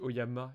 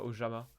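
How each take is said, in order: First: The middle consonant is a 'y' sound. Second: The middle consonant is a French 'j' sound. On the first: The speaker calls it right. "je le prononce euh, en latin. Le J en latin, ça c'est Ya" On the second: The speaker calls it wrong. "et pas Ojama"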